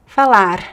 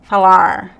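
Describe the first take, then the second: First: The final R is a quick tongue flap. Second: The final R is a curled American-style R. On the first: "It could be like the flap T" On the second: "the like American R"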